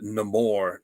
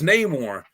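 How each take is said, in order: First: The name is pronounced the film actor's way. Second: The name is pronounced the usual way. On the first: This imitates how the film pronounced it. The speaker calls it wrong. "they couldn't even get an actor that could pronounce the name" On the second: This is how the name should sound. The speaker calls it right. "No, it's it's Namor"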